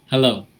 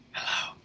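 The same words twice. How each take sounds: First: Said in the usual way. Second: Breathy whispered hello; a soft whispered hello. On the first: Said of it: "just say the word hello". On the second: Shown as a demonstration. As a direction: whisper the word softly. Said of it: "now whisper the word hello".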